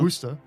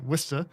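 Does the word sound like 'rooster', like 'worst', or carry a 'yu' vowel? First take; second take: rooster; yu. First: It rhymes with the word rooster. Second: It has a 'yu'-like vowel in it. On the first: "like like a rooster" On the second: "almost like a U E sound or E U sound"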